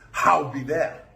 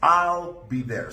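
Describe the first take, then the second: First: The first word starts with an h, like 'how'. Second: The first word has no h, like 'owl'. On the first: The speaker calls it wrong. "it is not I'll be there. No, that's not going to work" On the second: The speaker calls it right. "It's I'll be there. Say it right"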